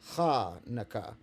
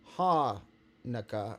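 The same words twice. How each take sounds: First: It begins with a raspy sound from the throat. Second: It begins with a plain, soft h sound. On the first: "more like Hanukkah, with a little bit of a different tone coming from your throat" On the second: "less like Hanukkah"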